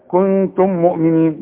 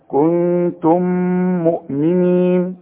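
First: The m sounds are separate with no nasal hum. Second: The m sounds merge with a held nasal hum. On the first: The speaker calls it wrong. "بدون إدغام وبدون غنة" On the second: The speaker calls it right. "ولازم نغن بمقدار حركتين"

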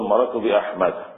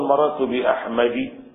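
First: The final word ends with an a vowel. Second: The final word ends with an i vowel. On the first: The speaker calls it right. "إنما تقول مررت بأحمد" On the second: The speaker calls it wrong. "لا يجر بالكسرة. لا تقول مررت بأحمد"

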